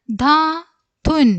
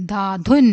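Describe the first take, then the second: First: Slow, higher, gap between syllables. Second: Said in the usual way. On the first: Shown as a demonstration. Teacher introducing a word to young readers, syllable by syllable. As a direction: sound it out in two parts.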